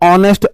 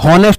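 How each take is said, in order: First: The word starts with a vowel, no h. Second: The word starts with an audible h sound. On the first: The speaker calls it right. "ऑनेस्ट को मैं ऑनेस्ट आ बोलता हूं" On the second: The speaker calls it wrong. "हॉनेस्ट नहीं बोलते"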